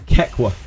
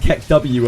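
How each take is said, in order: First: It ends in a short 'wa' syllable. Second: It ends with the letter name W spelled out. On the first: "I've always pronounced that emote Kekwa" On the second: "a real mouthful"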